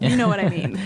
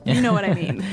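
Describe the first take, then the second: First: It is said as a statement, falling. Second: It is said as a statement, falling.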